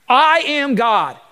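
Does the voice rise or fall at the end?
fall. The voice falls at the end, like a statement.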